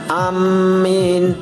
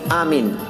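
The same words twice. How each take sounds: First: The m is doubled and the vowel after it lengthened. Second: The first vowel and the m are both short. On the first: "dengan mentasdid mim dan memanjangkannya" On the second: "dengan cara memendekkan hamzah dan mim"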